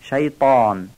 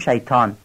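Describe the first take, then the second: First: The 't' sound is heavy and throaty. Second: The 't' sound is plain and light. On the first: "باید این بارو درشت و پر از گلو بگیم" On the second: "ما در فارسی تای دسته دارم تی نقطه دار تلفظ میکنیم"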